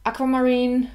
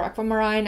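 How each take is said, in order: First: "Aquamarine" ending in "-een"; alternative pronunciation. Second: "aquamarine" ending in "-ine", rhyming with "line"; alternative pronunciation. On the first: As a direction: say "Aquamarine" with a long ee in the last syllable. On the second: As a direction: say "aquamarine" with an eye sound in the last syllable. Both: Shown as a demonstration. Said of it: "never know how to pronounce that".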